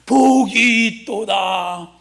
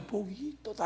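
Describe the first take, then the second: First: Slow, stretched preacher's declaration; drawn-out proclamation. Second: Very soft, half-hearted recital; lackluster wrong example. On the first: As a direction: model it for the congregation, drawing out every word. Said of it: "여기는 나처럼 좀 해". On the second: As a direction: toss it off softly, without any proclamation. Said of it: "하지 말고". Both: Shown as a demonstration.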